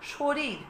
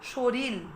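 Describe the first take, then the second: First: The word ends with an r sound. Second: The word ends with an l sound. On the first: "দুটোই র ছিল" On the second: "শেষের রটা ল হয়ে গেছে"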